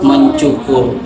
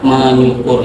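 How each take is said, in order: First: The word is said with a 'ch' sound. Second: The word is said with an 'ny' sound. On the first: The speaker calls it right. "seharusnya mencukur" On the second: The speaker calls it wrong. "bukan menyukur"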